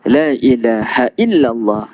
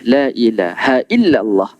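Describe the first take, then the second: The two takes are said the same way.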